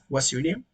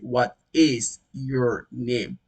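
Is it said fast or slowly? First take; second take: fast; slowly. First: It is said fast, with words run together. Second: It is said slowly, each word in full.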